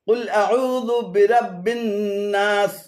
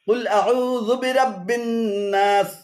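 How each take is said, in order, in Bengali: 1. বিরতির আগে 'dhu' a'u-এর সাথেই থাকে। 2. 'dhu' পরের শব্দের সাথে যুক্ত হয়। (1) "শুদ্ধ পাঠ হলো" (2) "অশুদ্ধ পাঠ হলো"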